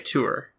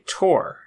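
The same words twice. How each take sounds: First: The word does not sound like 'tor'. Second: The word sounds the same as 'tor'. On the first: This is the other person's pronunciation. "I don't say tour" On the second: This is the speaker's own usual pronunciation. "It's a homophone with the mountain peak tour"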